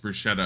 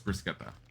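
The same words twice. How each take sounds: First: The middle consonant is a sh sound. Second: The middle consonant is a k sound. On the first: The speaker calls it wrong. "she kept on saying it's bruschetta" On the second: The speaker calls it right. "I know it's bruschetta"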